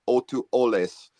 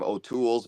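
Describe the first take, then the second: First: The name is said the Hawaiian way. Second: The name is said the Irish way. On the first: "the Hawaiian name is Otuoles" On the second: "Irish name O'Toole's"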